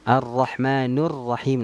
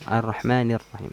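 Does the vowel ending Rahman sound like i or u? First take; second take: u; i. First: Rahman ends with a u vowel. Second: Rahman ends with an i vowel. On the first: The grammatical case ending is changed. The speaker calls it wrong. "ini nggak boleh" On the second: The grammatical case ending is kept. The speaker calls it right. "Tapi harusnya kan"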